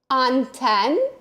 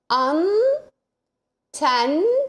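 First: It is read quickly as one smooth word. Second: It is read slowly, syllable by syllable.

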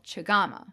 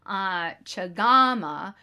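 First: The second syllable is kept short. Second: The second syllable is drawn out long. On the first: It is the tea kettle. "it is shorter in the name of the tea kettle" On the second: It is the character's name. "the second syllable in her name is elongated"

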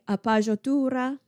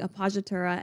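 First: It is said with an exaggerated Italian accent. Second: It is said with a plain English accent. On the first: "sort of in Italian with a very bad Italian accent" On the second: "I'll just be saying"

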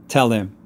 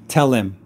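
First: The L links forward, sounding like tell Lim. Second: The same.

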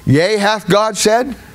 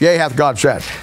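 First: It ends rising, like a question. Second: It ends falling, like a statement.

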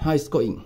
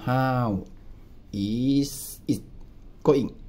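First: The phrase is said quickly and run together. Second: The phrase is said slowly with each word clear. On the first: "ถ้าพูดเร็วๆก็คือ" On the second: "ช้าๆก็"

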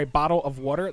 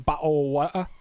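First: It is said in an American accent. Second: It is said in an English accent.

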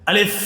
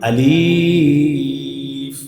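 First: The vowel is kept short, not drawn out. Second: The vowel is drawn out long. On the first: The speaker calls it right. "কোনো টান দেওয়া যাবে না" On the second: The speaker calls it wrong. "এভাবে টেনে পড়ি"

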